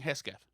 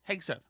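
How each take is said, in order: First: The name is said with an 's-k' sound. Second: The name is said with a 'g-s' sound. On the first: The speaker calls it wrong. "Rich Lowry is saying Hesketh" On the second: The speaker calls it right. "The other four guys all pronounce Hegseth"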